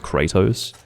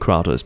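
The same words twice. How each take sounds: First: The name is said in the American pronunciation. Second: The name is said in a non-American pronunciation. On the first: The speaker calls it wrong. "everyone follows the American pronunciation, which is almost invariably downright wrong" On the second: The speaker calls it right. "I think correctly it would be Kratos"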